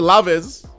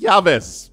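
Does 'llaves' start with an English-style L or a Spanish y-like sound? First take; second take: English L; Spanish Y. First: It starts with an English-style l sound. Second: It starts with a Spanish-style y-like sound. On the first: The speaker calls it wrong. "Don't say laves" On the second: The speaker calls it right. "you got to sound like a Spanish speaker"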